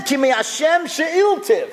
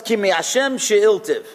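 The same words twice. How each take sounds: First: "Ki mi Hashem she'iltiv" lifted higher and drawn out slowly; slow, raised devout quoting of "Ki mi Hashem she'iltiv"; Hannah's voice. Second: Said in the usual way. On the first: Acted. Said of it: "She said". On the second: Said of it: "the Pasuk tells us".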